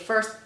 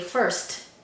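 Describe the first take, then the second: First: The final T is said without a puff of breath. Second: The final T is said with a puff of breath. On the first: The speaker calls it wrong. "We don't say first" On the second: The speaker calls it right. "aspirated because they are at the end. So we say first"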